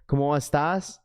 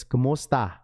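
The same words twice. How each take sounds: First: "cómo estás" with the final s clearly said; "cómo estás", ending on a crisp s sound, Spanish style; Spanish version. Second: "cómo está" with no final s, ending on the open a; "cómo está", dropping the s the Filipino way; Filipino version. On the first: Explaining to chat how Spanish speakers say "cómo estás", s kept. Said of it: "Spanish is they say". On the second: Explaining to chat the Filipino "cómo está", s dropped. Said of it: "In Filipino, it's". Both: Shown as a demonstration.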